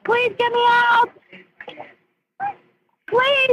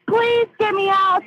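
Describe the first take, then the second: First: Higher, rising panic; panicked pleading. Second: Slow, frightened begging; desperate pleading. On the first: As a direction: beg harder, voice climbing. Trapped, begging louder. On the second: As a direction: plead for your life. Trapped, begging dispatcher. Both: Real, not acted.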